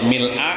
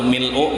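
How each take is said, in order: First: The word ends with an 'a' vowel. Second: The word ends with a 'u' vowel. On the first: The word describes the circumstance of the praise. "kalau misalnya mil'a ... nah mil'a itu berarti jadi hal" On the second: The word describes the praise as an attribute. "Amun baris dhammah rabbana kalhamdu mil'u berarti jadi sifat"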